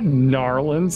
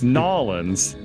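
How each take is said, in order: First: The word is said with an R sound. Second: The word is said without an R sound. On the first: The speaker calls it wrong. "Not Narlins" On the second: The speaker calls it right. "There's no R. It's Nolins"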